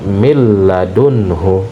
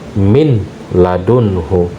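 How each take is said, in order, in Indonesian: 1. Bunyi n melebur menjadi l ganda. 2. Bunyi n terdengar jelas sebelum l. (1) "nun sukun dimasukkan atau dilebur ke dalam huruf lam" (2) "keliru apabila ada yang membaca min ladunhu"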